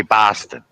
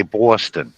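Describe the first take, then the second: First: New York BOSTON with an open ah, BAH-ston; demonstrated New York Boston; New York accent. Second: New England BOSTON with a rounded aw, BAW-ston; demonstrated New England Boston; New England accent. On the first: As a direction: say Boston as a New Yorker, open first vowel. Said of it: "New Yorkers say". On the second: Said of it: "The New England area, they say". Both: Shown as a demonstration.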